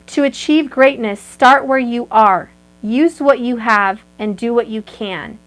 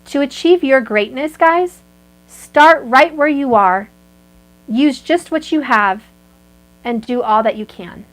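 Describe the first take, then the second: First: It is said fast. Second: It is said slowly.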